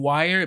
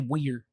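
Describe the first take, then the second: First: The word is said in a plain, standard way. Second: The word is said in a regional accent. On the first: "instead of saying wire" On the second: "What's the accent where ... people say wire"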